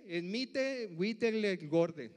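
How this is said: The name is said in a Mexican Spanish accent. "en mexicano dice"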